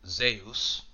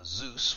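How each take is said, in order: First: The name is said with a Greek pronunciation. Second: The name is said with an English pronunciation. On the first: The speaker calls it right. "If we were speaking the Greece tongue, ... We would call him Zeus" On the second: The speaker calls it wrong. "we wouldn't call him Zeus"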